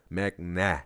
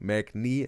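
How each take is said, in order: First: The final vowel sounds like ah. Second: The final vowel sounds like ee. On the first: The speaker calls it right. "Mac nah, not nay" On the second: The speaker calls it wrong. "Mac knee, wrong"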